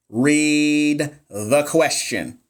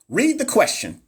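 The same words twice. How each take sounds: First: Drawn-out, each word stretched; slow, deliberate. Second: High punchy command to read; emphatic. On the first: Tutor slowing down so viewers read carefully, drawn out. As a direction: spell it out slowly for the class. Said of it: "I'm gonna read it slow". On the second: Nursing tutor urging livestream viewers, high emphatic. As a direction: urge them to read it. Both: Shown as a demonstration.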